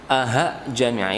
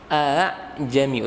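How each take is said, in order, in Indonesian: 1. Bunyi tengahnya adalah h berhembus. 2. Bunyi tengahnya ringan, tanpa h. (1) "seakan-akan menjadi huruf H" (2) "ringan saja, bukan diberatkan jadi H"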